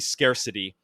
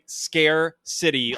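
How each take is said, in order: First: It is said quickly as one run-together word. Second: It is said slowly as two separate words. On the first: It means a lack of necessities. "if you say it quickly" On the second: It names a city of fear. "like Scare is in horror movie"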